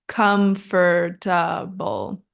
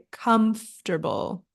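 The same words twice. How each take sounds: First: Slow four-syllable COMFORTABLE, "KUM-fer-ta-bul"; common mispronunciation of COMFORTABLE. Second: COMFORTABLE squeezed to "KUMF-ter-bul"; three syllables in COMFORTABLE, quick middle TER; correct COMFORTABLE. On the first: Teacher shows how many people say it, COMFORTABLE slowly as com-fer-ta-bul. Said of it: "So many people pronounce this as". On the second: Teacher corrects students, COMFORTABLE as KUMF-ter-bul. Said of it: "middle part is pronounced quickly". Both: Shown as a demonstration.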